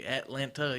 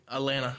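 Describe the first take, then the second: First: Atlanta slowly, with both Ts sounded, "At-lan-Ta"; careful pronunciation. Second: Atlanta slurred to "uh-LAN-uh"; local pronunciation. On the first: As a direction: hit every T in Atlanta, slow. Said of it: "You don't say Atlanta". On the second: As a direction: drop both Ts from Atlanta. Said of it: "You say Atlanta". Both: Shown as a demonstration.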